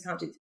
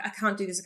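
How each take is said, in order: First: Much softer, trailing off, a hint of defeat; fading to a murmur. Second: A touch of tearful despair on I can't do this; half-hearted teary protest, softer; mild retold despair. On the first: Retelling her pre-launch panic to a friend, fading quiet repeat. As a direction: let it die away almost under the breath. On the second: Panicking to her friend the night before launch, mildly tearful. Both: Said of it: "I was crying".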